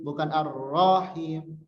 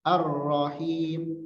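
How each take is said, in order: First: "Ar-Rahim" with the ro dragged; long ro. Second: "Ar-Rahim" slow, chanted, ro kept short. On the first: Teacher showing overlong ro. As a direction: wrongly draw out the ro. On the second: Teacher modelling correct short ro. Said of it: "Ro-nya pendek". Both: Shown as a demonstration.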